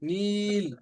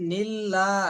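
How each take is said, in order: First: The vowel is drawn out long before the l. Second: The vowel is short and the l is held. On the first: The speaker calls it wrong. "নীল যদি টান হইতো তাহলে কিন্তু এরকম হইতো।" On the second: The speaker calls it right. "নিল্লা এখানে ধরে রাখতেছি।"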